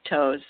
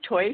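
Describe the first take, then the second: First: The vowel is an 'oh' sound. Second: The vowel is an 'oi' sound. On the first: This is how many people commonly say it. "a lot of people pronounce it toes" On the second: This is the original German pronunciation. "which give you the oi, so Teufs"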